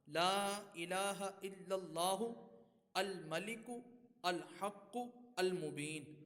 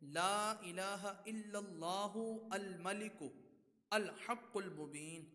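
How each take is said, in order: First: Each word is read separately with breaks. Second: Some words are separated, the last ones joined.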